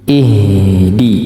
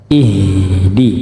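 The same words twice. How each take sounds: Both takes have the same delivery.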